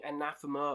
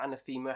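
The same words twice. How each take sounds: First: "Anathema" stressed on the second syllable, a-NATH-ema; first pronunciation. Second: "Anathema" with a long ee, ana-THEE-ma; alternative pronunciation. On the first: Host naming the band he is ranking, first pronunciation. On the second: Host offering viewers another option, alternative pronunciation. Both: Shown as a demonstration. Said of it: "however you want to pronounce them".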